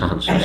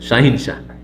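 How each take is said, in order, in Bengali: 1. দ্বিতীয় অক্ষরে 'a' স্বর আছে: han। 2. দ্বিতীয় অক্ষরে 'i' স্বর আছে: hin। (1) "কিন্তু আসলে শাহানশাহ" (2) "বাঙালির একটু বিকৃত করে দেয়"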